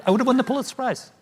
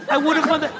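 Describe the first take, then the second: First: Said in the usual way. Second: Higher, laughing through the words. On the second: Real, not acted. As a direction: laugh at your own missed chance. Repeats it, breaking into laughter.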